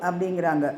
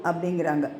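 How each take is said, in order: No difference in how they are said.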